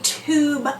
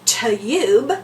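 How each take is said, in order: First: The vowel sounds like 'oo'. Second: The vowel sounds like 'you'. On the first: The speaker calls it right. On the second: The speaker calls it wrong.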